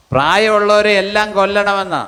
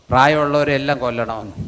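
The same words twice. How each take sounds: First: പ്രായമുള്ളവരെ hit higher and louder, the whole line raised; emphatic repeat. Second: Said in the usual way. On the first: Shown as a demonstration. Pastor repeating a shocking claim to the church, emphatic. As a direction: say it again, punching പ്രായമുള്ളവരെ. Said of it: "plain take before it". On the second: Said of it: "repeats the phrase louder".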